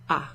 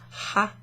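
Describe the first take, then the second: First: The word begins directly with the vowel sound. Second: The word begins with an audible h sound. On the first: The speaker calls it right. "you don't pronounce that H there" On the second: The speaker calls it wrong. "It's not ha"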